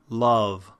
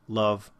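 First: The vowel is made low and back, resonant. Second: The vowel is made centrally in the mouth. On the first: The speaker calls it right. "It's much more resonant when you really get it back into the back of your mouth" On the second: The speaker calls it wrong. "if I do it sort of more in the center of my mouth"

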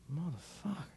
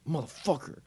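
First: It is said in a confused tone. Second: It is said in an angry tone.

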